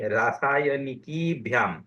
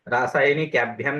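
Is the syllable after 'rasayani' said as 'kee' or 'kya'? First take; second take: kee; kya. First: The syllable after rasayani sounds like kee. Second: The syllable after rasayani sounds like kya. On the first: The speaker calls it right. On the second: The speaker calls it wrong.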